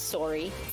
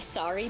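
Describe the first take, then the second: First: It is said in a Canadian accent. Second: It is said in a plain American accent. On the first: "When I cross the border, my sorry becomes" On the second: "my sorry"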